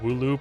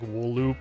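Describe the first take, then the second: First: The first syllable ends without an L sound. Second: The first syllable ends with an L sound. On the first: "I think I just say like woo loop" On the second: "wool loop kind of sounds better"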